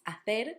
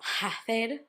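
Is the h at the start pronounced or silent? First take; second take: silent; pronounced. First: The first letter h is silent. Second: The first letter h is pronounced. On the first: The speaker calls it right. "The second word is hacer" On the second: The speaker calls it wrong. "not hacer"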